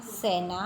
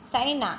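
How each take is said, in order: First: सेना said with a pure e vowel, not ai; correct sena with e. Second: सेना said as saina with ai; wrong sena with ai. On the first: Teacher shows the right way to say सेना. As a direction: say सेना with a clean e. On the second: Teacher shows the wrong way to say सेना. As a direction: say सेना with an ai vowel. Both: Shown as a demonstration.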